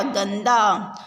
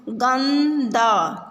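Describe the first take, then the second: First: Said in the usual way. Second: गंदा drawn out very slowly, syllable by syllable; slow syllable reading. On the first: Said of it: "तो क्या बन गया?". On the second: Shown as a demonstration. Teacher sounds out गंदा for children, very slowly. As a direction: stretch out गंदा for the class to follow. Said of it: "शब्दों को पढ़ेंगे".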